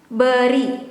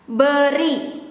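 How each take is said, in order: The two takes are said the same way.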